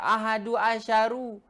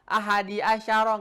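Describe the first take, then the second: First: Both words end in a u vowel. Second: The first word ends in an i vowel. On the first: "Nggak boleh dibaca" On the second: "nggak bisa"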